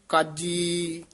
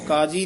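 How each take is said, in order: First: The word is said tightly, with pressed sounds. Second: The word is said loosely, without pressed sounds. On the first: The speaker calls it right. "ਕਸ ਕੇ ਉਚਾਰਨ ਕਰਨਾ ਹੈ" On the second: The speaker calls it wrong. "ਕਾਜੀ ਨਹੀਂ ਕਹਿਣਾ"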